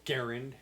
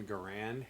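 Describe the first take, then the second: First: Garand stressed on the first syllable. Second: Garand stressed on the last syllable; "Garand" with weight on its end; second-syllable stress. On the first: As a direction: say "Garand" as GARE-und. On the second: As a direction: say "Garand" as guh-RAND. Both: Shown as a demonstration. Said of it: "Garand, whatever".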